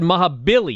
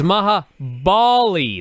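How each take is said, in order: First: The second name sounds like 'Billy'. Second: The second name sounds like 'Bali'. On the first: The speaker calls it wrong. "you said Maha Billy" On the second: The speaker calls it right. "It's Maha Bali, not Billy"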